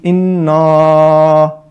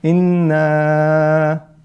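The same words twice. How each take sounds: First: The vowel is heavy, with lips opened wide. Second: The vowel is medium, with lips moderately open. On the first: The speaker calls it wrong. "that's mufakhama, that's incorrect" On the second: The speaker calls it right. "that's the correct one"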